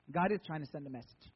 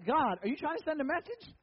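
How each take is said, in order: First: Low, falling answer with weight on IS; deadpan confirmation, IS stressed. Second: High, rising question; mock questioning. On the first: Real, not acted. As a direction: lean on IS and settle down low. Answers his own question, dropping low. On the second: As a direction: ask it upward in playful disbelief. Mock question put to God.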